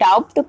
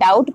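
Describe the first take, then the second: First: The b sound is pronounced before the t. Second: The b is silent; no b sound is heard. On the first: The speaker calls it wrong. "इसको डाउट प्रोनाउंसिएट नहीं करेंगे" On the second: The speaker calls it right. "इसको डाउट प्रोनाउंसिएट किया जाता है"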